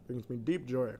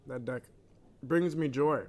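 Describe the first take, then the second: First: Deep stretched and savoured; stress on deep. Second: Said in the usual way. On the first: Real, not acted. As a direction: linger on the word deep.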